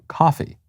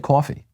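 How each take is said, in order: First: It is said in a non-New York accent. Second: It is said in a New York accent. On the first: "Some people say co- coffee" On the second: "I say coffee because I'm from New York"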